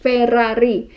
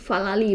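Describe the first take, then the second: First: The name is said with R sounds. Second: The name is said with L sounds. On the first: This is the original name that locals do not recognize. "bukan Ferrari" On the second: This is how local people know the name. "mereka taunya Falali"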